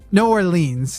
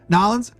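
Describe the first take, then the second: First: The name is said fully, in general American. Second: The name is squeezed into two syllables, Cajun-style. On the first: The speaker sounds like most people. "most people just say New Orleans" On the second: The speaker sounds like a local Cajun. "they kind of say Nolans"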